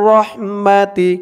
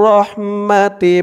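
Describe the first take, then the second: Both takes have the same delivery.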